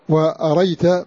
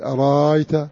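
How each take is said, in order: First: The second hamza is dropped entirely. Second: The second hamza becomes a long vowel. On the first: "بحذف الهمزة" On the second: "وورش بالإبدال"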